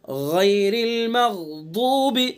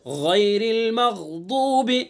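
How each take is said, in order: Both takes have the same delivery.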